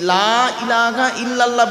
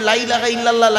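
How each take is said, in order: First: The phrase is said slowly and carefully. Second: The phrase is said quickly and hurriedly. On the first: There is no deity except God. The speaker calls it right. "এই লা ইলাহা ইল্লাল্লাহ বলবেন।" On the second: There is indeed a deity besides God. The speaker calls it wrong. "হুটোপাটা করে"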